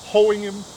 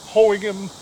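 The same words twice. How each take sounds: The two takes are said the same way.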